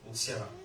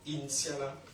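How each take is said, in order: First: The name begins directly with the N sound. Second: The name begins with a vowel before the N. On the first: The speaker calls it right. "C'est N apostrophe, Ntiala" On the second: The speaker calls it wrong. "c'est pas Intiala"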